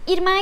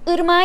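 First: The first vowel is the front i. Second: The first vowel is the back unrounded ı. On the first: The speaker calls it wrong. "irmağa gideyrum diyor mesela" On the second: The speaker calls it right. "ırmağa gideyrum yerine"

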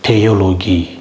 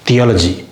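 First: The word begins with a plain 't' sound. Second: The word begins with a soft 'th' sound. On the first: The speaker calls it right. "இந்த ஹெச் உச்சரிக்கப்படாது" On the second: The speaker calls it wrong. "இங்கே இத்துங்கிற சவுண்டே இல்லை"

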